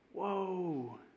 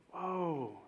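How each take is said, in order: First: It is said in a sad, grieving tone. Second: It is said in a sad, grieving tone.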